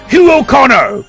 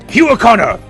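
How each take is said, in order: First: The name is yelled at a slower pace. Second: The name is yelled faster and more intensely.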